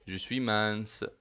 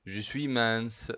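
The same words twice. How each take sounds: The two takes are said the same way.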